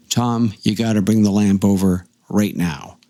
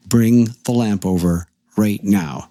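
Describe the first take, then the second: First: Firm but even retold request; retold demand. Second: Slow, emphatic retold order; insistent command. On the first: Retold urgent demand, first take. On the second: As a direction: weigh each word, allowing no argument. Retold demand repeated more insistently.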